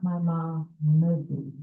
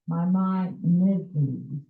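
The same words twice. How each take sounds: First: "my mom Mizzy" with the second syllable closed on an M; wrong pronunciation. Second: "my mom Mizzy" with the second syllable ending in an open A; correct pronunciation. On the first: Committee member shows members what to avoid, wrong pronunciation. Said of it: "not my mom Mizzy". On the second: Committee member teaches the hospital's name, correct pronunciation. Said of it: "He clarified the pronunciation". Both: Shown as a demonstration.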